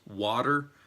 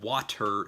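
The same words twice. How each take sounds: First: The T is softened so it sounds like D. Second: The T is pronounced as a crisp, clear T. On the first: The speaker calls it right. "you deaden the T ... It's like you're saying W A D E R" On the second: The speaker calls it wrong. "so it's not water"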